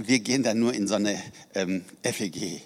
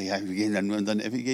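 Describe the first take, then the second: First: Imitating a sheepish, apologetic admission; mock-embarrassed, trailing off at "F E G"; embarrassed mumble. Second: Rattled off fast, imitating her brushing it aside; quick offhand repeat. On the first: Woman at a conference admits her church, embarrassed. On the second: Woman repeats her church's name quickly and offhand. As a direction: hurry through "F E G" casually. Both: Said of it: "wieso sagst du das so komisch".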